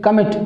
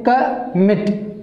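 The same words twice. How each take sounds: First: Said in the usual way. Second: "commit" said slowly, weight on "mit"; stress on MIT. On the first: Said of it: "We say commit". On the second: Shown as a demonstration. Teacher modelling stress for students, slow with weight on "mit". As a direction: lean on the second syllable of "commit". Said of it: "so that's why there is more stress".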